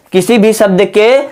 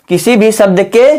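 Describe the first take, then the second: No difference in how they are said.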